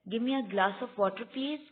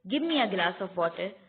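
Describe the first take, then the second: First: It is said as a polite request. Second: It is said as a firm command.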